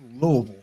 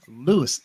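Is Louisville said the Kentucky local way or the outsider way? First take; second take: local; outsider. First: It is pronounced the way Kentucky locals say it. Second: It is pronounced the way non-Kentuckians say it. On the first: The speaker is from Kentucky. "If you're from Kentucky, like me, it's Louisville" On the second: The speaker is from outside Kentucky. "if you are outside of Kentucky, where y'all are, it's pronounced as Louisville"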